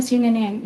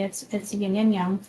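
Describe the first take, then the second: First: It is pronounced the Americanized way. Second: It is pronounced the non-Americanized way. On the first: The speaker calls it wrong. "everyone's like, oh no" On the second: The speaker calls it right. "if you say it properly"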